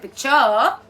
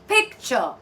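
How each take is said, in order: First: The stress is on the second syllable. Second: The stress is on the first syllable. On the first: The speaker calls it wrong. "You will not say picture" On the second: The speaker calls it right. "So you will say picture"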